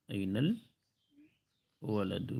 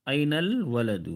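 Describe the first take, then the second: First: أين الولد stretched out very slowly and softer; slow model repeat. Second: Said in the usual way. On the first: Shown as a demonstration. Teacher repeating for students, very slow. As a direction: drag each word out for learners. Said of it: "boy کہاں ہیں". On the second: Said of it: "کہ ابا کہاں ہیں".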